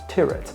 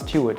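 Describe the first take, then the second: First: The name rhymes with the word spirit. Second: The name does not rhyme with spirit. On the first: The speaker calls it right. "pronounced Tyrwhitt, to rhyme with spirit" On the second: The speaker calls it wrong. "I was always calling it Charles Tyrwhitt"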